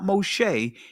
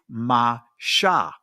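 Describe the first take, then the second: First: The first vowel sounds like 'oh'. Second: The first vowel sounds like 'ah'. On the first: The speaker calls it wrong. "the actual primitive pronunciation of Moses' name is not Moshe" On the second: The speaker calls it right. "it is Masha"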